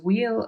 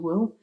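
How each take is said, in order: First: The two words merge into one contracted syllable. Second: The 'we' sound almost disappears, leaving 'will'. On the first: "it's reduced to we'll" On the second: "in fast speech it's reduced even further to will"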